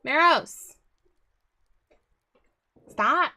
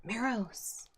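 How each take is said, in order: First: Loud sharp yell at the cat; sharp shout. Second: Said in the usual way. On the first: Real, not acted. Shouting at the cat to stop it interrupting, loud and sharp. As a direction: bark the cat's name to stop it.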